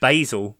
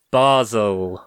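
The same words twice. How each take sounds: First: "Basel" said BAY-zel, with a long a; "Basel" the American way, BAY-zel; American pronunciation. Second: "Basel" said BAH-zel, with a broad a; "Basel" as the Swiss say it, BAH-zel; local pronunciation. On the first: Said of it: "for our American listeners". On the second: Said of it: "Basel for our American listeners". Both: Shown as a demonstration.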